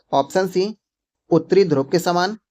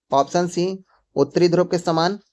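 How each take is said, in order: The two takes are said the same way.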